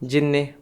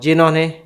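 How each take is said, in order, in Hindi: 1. यह शब्द संक्षिप्त रूप में बोला गया है। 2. यह शब्द पूरे रूप में बोला गया है।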